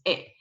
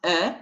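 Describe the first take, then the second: First: "e" as an unrounded eh; accented French E. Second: "e" as a rounded French schwa; unaccented French E. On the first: Teacher showing E with accents, "e" as eh. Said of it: "with the other three sort of accent". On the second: Teacher showing E without accent, rounded "e". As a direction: say "e" with lips rounded as for O. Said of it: "without any accent, you pronounce". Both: Shown as a demonstration.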